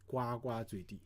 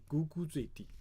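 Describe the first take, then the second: First: The repeated syllables are pronounced gua. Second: The repeated syllables are pronounced gu. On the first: The speaker calls it wrong. "many people will say it 呱呱坠地. So actually, it's not correct" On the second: The speaker calls it right. "It should be it should be 咕咕坠地"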